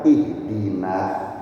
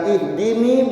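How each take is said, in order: First: Ihdina said slowly, ending clearly in "na"; correct ihdina. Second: Ihdini said higher, ending in "ni", as a wrong version. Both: Shown as a demonstration. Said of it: "bukan ihdini, bukan".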